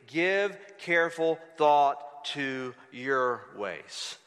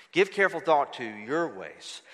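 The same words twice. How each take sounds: First: Very slow, low, word by word; slow solemn pronouncement. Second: Low-pitched, at an everyday pace; solemn restatement. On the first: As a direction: weigh each word as God's charge. God's word, drawn out, then repeated. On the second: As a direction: restate the verse low, without drawing it out. Same verse repeated at ordinary pace. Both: Acted.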